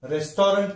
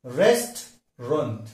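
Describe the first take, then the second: First: रेस्टोरेंट with a full long O in the middle; wrong pronunciation. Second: रेस्टोरेंट slowly in two beats, REST-runt; slow, lower model of रेस्टोरेंट; correct pronunciation. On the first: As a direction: say रेस्टोरेंट as res-TO-rent. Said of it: "हम इसका गलत उच्चारण". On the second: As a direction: drop the middle vowel of रेस्टोरेंट. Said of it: "सही है". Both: Shown as a demonstration.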